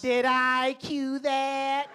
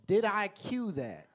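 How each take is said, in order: First: It is said in an exaggerated character voice. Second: It is said in a normal speaking voice.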